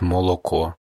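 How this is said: The unstressed vowels are said as a clear o.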